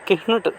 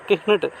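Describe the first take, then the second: No difference in how they are said.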